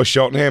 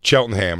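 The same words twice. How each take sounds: First: "Cheltenham" with sh for the opening ch; speaker's own pronunciation. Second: "Cheltenham" begun with a hard ch sound; "Cheltenham" corrected with ch as in church; correcting pronunciation. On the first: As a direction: say "Cheltenham" as SHELT-en-ham. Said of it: "I've always called it Cheltenham". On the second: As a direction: say "Cheltenham" as CHELT-en-ham, lower. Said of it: "and he goes". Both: Retold or imitated.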